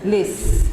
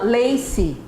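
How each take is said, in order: First: The word ends cleanly on the final consonant. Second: An extra vowel is added after the final consonant. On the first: The speaker calls it right. "we don't pronounce the last vowel" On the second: The speaker calls it wrong. "this is a problem"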